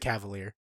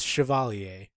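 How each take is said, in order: First: The name begins with a hard k sound. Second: The name begins with a soft sh sound. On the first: The speaker calls it wrong. "they just mispronounce his name, ... they just say Cavalier" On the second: The speaker calls it right. "It is pronounced it is spelled the French way. It's Chevalier"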